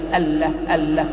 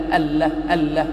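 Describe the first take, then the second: Both takes have the same delivery.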